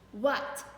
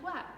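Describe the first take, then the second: First: It is said loudly, shouted. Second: It is said quietly, like a question.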